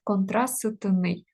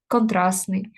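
First: Slow, careful контрастний with the т sounded; spelling pronunciation. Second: Контрастний said контрасний, т dropped; natural pronunciation. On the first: Teacher spelling out the word for students, slow and careful. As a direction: sound every letter of контрастний, т included, slowly. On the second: Teacher showing students the everyday spoken form, relaxed. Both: Shown as a demonstration. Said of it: "не завжди вимовляємо цю, е, приголосну".

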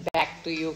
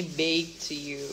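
First: "[name]" with a short English "back"; correct pronunciation. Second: "Bake to You" with a long "bake" vowel; bake pronunciation. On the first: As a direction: say "[name]" as back, not bake. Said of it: "Harusnya kan [name] kan". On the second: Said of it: "tapi ini Bake to You". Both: Shown as a demonstration.

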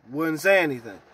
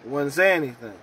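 No difference in how they are said.

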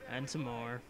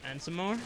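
First: Lower, softer tag-on, falling away; low, quiet repeat. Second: Rising repeat. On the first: Gamer drags out the waiting joke, low and quiet. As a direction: drop it low and soft. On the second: Gamer drags out the waiting joke, rising questioningly. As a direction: lift it upward like a question. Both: Pretend.

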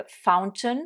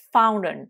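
First: FOUNTAIN with the t sounded, "FOWN-tun"; British "fountain", clear t after the n; British pronunciation. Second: FOUNTAIN with the t dropped, "FOW-nun"; louder American "fountain", silent t after n; American pronunciation. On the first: Teacher modelling for learners, British fountain with t pronounced. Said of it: "prononciation britannique". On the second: Teacher contrasting for learners, American fountain without its t. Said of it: "Prononciation américaine". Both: Shown as a demonstration.

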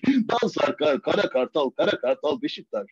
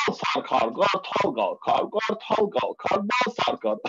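First: Said in the usual way. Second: Slow, rhythmic chant of the rhyme; tongue twister demo. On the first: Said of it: "Ulan ben Beşiktaş Kartal dedim mi". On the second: Shown as a demonstration. Teaching a friend a tongue twister, slow rhythmic chant. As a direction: teach it word by word, steady beat. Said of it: "Ben sana şunu öğreteyim".

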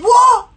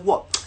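First: Very high, loud put-on voice; startled mock squawk. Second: Said in the usual way. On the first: Girl on the train reacting to his news, startled. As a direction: yelp it like a baffled stranger. Girl's shrieked reply, acted out. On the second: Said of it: "talk to her a little calmly".

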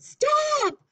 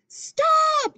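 First: "Stop!" yelled high and loud; teacher demonstrating a yelled "Stop!"; shouted stop. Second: "Stop!" yelled very high and loud; teacher demonstrating Joe yelling "Stop!"; shouted stop. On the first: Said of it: "something that would be shouted". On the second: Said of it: "yelled Joe". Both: Shown as a demonstration.

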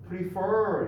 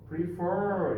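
First: Prefer said with the second syllable fer stressed. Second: Prefer repeated, fer stressed and falling. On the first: Teacher to class, showing stress on fer in Prefer. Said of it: "for에 강세가 있어요". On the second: Teacher to class, repeating Prefer with fer stressed. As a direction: lean on fer in Prefer again. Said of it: "이렇게". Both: Shown as a demonstration.

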